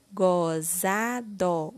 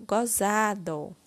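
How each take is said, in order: First: GOZADO drawn out slowly as go, za, do; syllable by syllable. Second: Said in the usual way. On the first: Shown as a demonstration. Teacher completing the word with syllable gó, slowly syllable by syllable. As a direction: sound out GOZADO one syllable at a time. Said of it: "Iremos utilizar a sílaba gó". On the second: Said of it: "formando a palavra".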